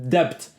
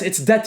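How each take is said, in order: First: The b is pronounced before the t. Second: The b is silent before the t. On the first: The speaker calls it wrong. "he's pronounces debt" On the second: The speaker calls it right. "Anas, it's debt"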